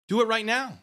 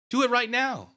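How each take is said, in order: First: Taunting demand. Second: Louder taunt. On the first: Repeated taunt. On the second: Repeated taunt, higher. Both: Acted.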